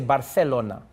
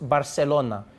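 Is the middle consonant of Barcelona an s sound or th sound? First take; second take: th; s. First: The middle consonant is a lisped th sound. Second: The middle consonant is a plain s sound. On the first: This is how the king with a lisp said it. "a king who had a lisp ... He would say Barcelona" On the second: This is how the king could not say it. "he couldn't say Bar- Barcelona"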